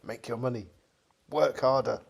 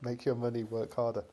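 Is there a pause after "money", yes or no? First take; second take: yes; no. First: There is a break after "money". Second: It is said as one phrase, no pause.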